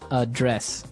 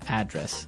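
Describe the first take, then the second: First: The stress is on the second syllable. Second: The stress is on the first syllable.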